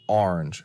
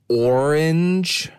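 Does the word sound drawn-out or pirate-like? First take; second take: pirate-like; drawn-out. First: The word is said with a pirate-like sound. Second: The word is said in a drawn-out, tiring way. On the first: This is how the speaker prefers to say it. "I like to think of it like a pirate" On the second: This is how other people say it. "They say it's orange, which sounds exhausting"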